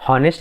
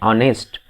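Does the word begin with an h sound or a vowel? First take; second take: h sound; vowel. First: The word begins with an h sound. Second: The word begins with a vowel, no h. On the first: The speaker calls it wrong. "हम हॉनेस्ट नहीं पढ़ते" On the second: The speaker calls it right. "इसको हम पढ़ते हैं ऑनेस्ट"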